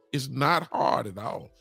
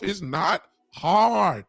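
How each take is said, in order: First: Said in the usual way. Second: Slow "It's not hard." with "hard" drawn out and hit hard; slow emphatic. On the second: Real, not acted. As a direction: lean on "hard" and take your time.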